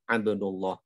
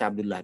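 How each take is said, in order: First: The l in Abdullah is thick and full. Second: The l in Abdullah is thin and light. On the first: This is how it is read in Arabic. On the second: This is fine when speaking Indonesian. "Jadi kalau dalam bahasa kita nggak apa-apa"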